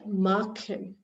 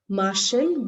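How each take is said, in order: First: The ch is said as a throaty kh. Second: The ch is said as a soft sh. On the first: The speaker calls it right. "with A or O or U, it's going to take the kh sound" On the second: The speaker calls it wrong. "this is not Machen"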